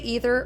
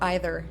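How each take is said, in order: First: The first vowel sounds like 'ee'. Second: The first vowel sounds like 'eye'. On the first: "Do you do double E's?" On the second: "Or do you go, aye"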